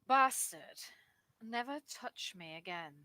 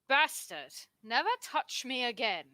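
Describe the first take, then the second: First: It is said with mild emphasis. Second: It is said with strong emphasis.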